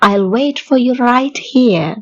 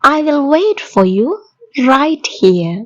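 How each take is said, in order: First: 'I will' is contracted into one syllable. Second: Both words 'I will' are said in full.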